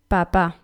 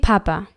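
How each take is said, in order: First: It is said with the Spanish stress pattern. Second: It is said with the German stress pattern. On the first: "Im Spanischen Papa" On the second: "Genauso wie Papa"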